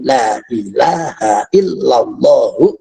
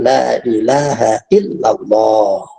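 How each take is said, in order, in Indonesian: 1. Di akhirnya ada vokal 'u' tambahan. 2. Berhentinya di 'h' terakhir. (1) "kalau diterusin" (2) "kalau diwakofkan"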